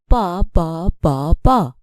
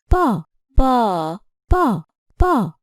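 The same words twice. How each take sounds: First: All four syllables sound the same, none stressed. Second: The second syllable is held longer than others. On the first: "Here we have four identical syllables" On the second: "I have stressed the second syllable with length"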